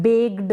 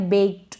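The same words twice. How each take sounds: First: बेक्ड misread as "begd", with a voiced D; wrong voiced ending. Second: बेक्ड ending in a light T, "bekt"; voiceless ending. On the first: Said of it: "अब इसको आप बेक्ड ना पढ़ें". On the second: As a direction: say बेक्ड with a small unvoiced t at the end. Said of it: "तो ये voiceless है". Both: Shown as a demonstration.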